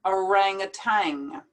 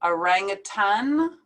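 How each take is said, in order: First: "orangutan" ending in "tang", with NG; American tang ending. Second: "Orangutan" ending in N, like "tan". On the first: Teacher contrasting two ways, ending in tang. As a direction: finish "orangutan" on an NG sound. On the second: Teacher contrasting two ways, ending in N. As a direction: finish "Orangutan" on a short "tan", no G. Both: Shown as a demonstration. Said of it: "two ways to pronounce this word".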